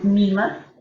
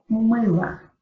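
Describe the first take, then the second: First: The first vowel is a plain front 'ee'. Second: The first vowel is a dark central 'ы'. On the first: The speaker calls it wrong. "yo no estoy diciendo una I, yo no estoy diciendo mila" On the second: The speaker calls it right. "pero mыла"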